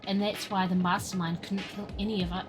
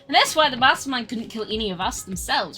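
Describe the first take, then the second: First: It is said in a different character's voice. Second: It is said in the coder character's voice.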